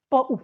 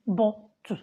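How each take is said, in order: First: Bo'u said with a glottal stop in place of the t; bo'u, the middle t swallowed into a catch; British bottle. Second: Botu with a clear t and a full u at the end; botu, t fully sounded, ending in an open u; Nigerian bottle. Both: Shown as a demonstration. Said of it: "That's how they teach us pronunciation".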